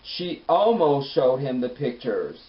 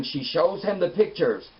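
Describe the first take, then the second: First: "almost" stretched out loud and long; slow correction leaning hard on "almost"; stress on ALMOST. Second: Drawn-out, higher "shows him the pictures"; "shows" stated as a done deal, slowly; stress on SHOWS. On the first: Correcting her notes after the letdown, stress on "almost". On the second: Writing down the big reveal, stress on "shows". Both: Retold or imitated. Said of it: "I had to scratch that out".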